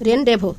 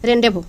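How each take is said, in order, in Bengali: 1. z এবং শেষের s নীরব থাকে। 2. z এবং শেষের s নীরব থাকে।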